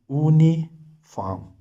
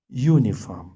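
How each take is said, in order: First: The word is pronounced the German way. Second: The word is pronounced the English way. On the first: "but in German, it is Uniform" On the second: "Uniform in English"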